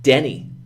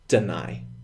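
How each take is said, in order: First: It sounds like 'denny', with a short first vowel. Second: It sounds like 'de-nye', ending in a long 'eye'. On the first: The speaker calls it wrong. "a lot of my students, they say Denny" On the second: The speaker calls it right. "but it is in fact deny"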